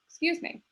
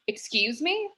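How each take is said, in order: First: It sounds soft and apologetic. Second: It sounds sharp and indignant. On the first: The speaker apologizes for bumping into someone. "I'm sorry for bumping into you" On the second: The speaker challenges what the other person said. "I'm sorry, what did you say? And that's a powerful intonation"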